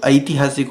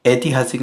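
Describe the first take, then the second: First: "ऐतिहासिक" with opening ai diphthong; correct pronunciation. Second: "ऐतिहासिक" with plain e opening; wrong pronunciation. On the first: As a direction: glide from a to i starting "ऐतिहासिक". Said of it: "ऐ लगता है". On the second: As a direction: begin "ऐतिहासिक" on a single e. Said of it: "नहीं होता है". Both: Shown as a demonstration.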